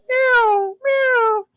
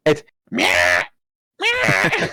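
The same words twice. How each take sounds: First: High squeaky imitated meow; high imitated cat meow. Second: Nagging cat meow. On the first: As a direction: mimic a normal cat's meow. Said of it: "Instead of going". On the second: Retold or imitated. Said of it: "it's like".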